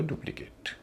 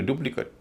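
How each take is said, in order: First: डुप्लीकेट as DU-pli-KATE; verb pronunciation. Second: डुप्लीकेट as DU-pli-kut; noun pronunciation. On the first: Teacher contrasting verb with noun, डुप्लीकेट with full "kate". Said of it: "verb है तो डुप्लीकेट". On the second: Teacher contrasting noun with verb, डुप्लीकेट as DU-pli-kut. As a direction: keep the ending of डुप्लीकेट weak. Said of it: "noun है तो डुप्लीकेट". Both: Shown as a demonstration.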